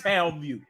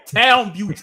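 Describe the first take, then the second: First: Said in the usual way. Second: Townview said louder and punched hard; emphatic repeat. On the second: Shown as a demonstration. To friends, hyping the tough neighborhood, punching Townview loudly. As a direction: hit Townview loudly to drive it home.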